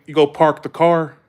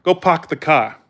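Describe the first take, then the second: First: Southern "park the car" with R's sounded; R-full Southern accent. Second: Imitated New England "park the car" without R's; dropped-R Boston accent; Northern accent. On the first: Shown as a demonstration. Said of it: "say it in the South". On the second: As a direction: say it "pahk the cah", New England style. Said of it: "Like, we say".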